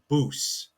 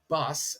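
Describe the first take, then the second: First: The vowel is a long 'oo' sound. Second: The vowel is a short 'uh' sound. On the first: The speaker calls it right. "It's boos" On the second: The speaker calls it wrong. "So it's not bus as what we would know"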